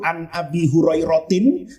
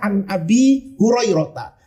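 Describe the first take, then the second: First: The name ends with the syllable 'tin'. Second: The name ends with the syllable 'ta'. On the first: The name is treated as a fully declinable noun. "harusnya majrur" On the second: The name is treated as a partly declinable noun. "pendapat mayoritas itu dibacanya"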